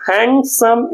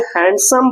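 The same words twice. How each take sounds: First: हैंडसम split as हैंड, सम; two separate syllables. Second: Said in the usual way. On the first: Shown as a demonstration. Teacher showing two syllables to students, हैंडसम broken in two. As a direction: say हैंडसम in two distinct units. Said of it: "दो syllable का word है". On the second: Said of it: "तो पहले हैंड फिर सम".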